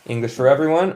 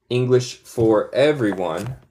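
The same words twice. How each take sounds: First: Said in the usual way. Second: Slow, separated words; unhurried, word-by-word book title; slow, careful title. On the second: Shown as a demonstration. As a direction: read the title out carefully for learners. Names book slowly, then normally.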